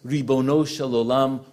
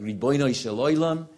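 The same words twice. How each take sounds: First: It is said with a standard pronunciation. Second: It is said with an Eastern European pronunciation.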